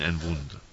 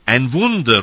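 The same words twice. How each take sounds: First: Said in the usual way. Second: Loud, higher cry of "Ein Wunder"; shouted cry. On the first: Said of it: "die anderen schrien". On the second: Retold or imitated. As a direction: call out "Wunder" like a crowd seeing a miracle. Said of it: "rufen die einen".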